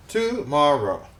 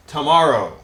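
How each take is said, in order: First: Tomorrow split as tu - mor - row; syllable by syllable. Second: Said in the usual way. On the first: Shown as a demonstration. Teacher breaks the word up for students, Tomorrow in separate syllables. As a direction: space Tomorrow into three beats. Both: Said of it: "break them up into syllables".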